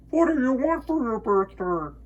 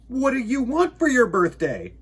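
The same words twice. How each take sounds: First: Echo. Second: High, eager bear voice; curious little bear; Bear's question. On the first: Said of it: "his own voice echoed off". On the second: Bear asks the moon. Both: Acted.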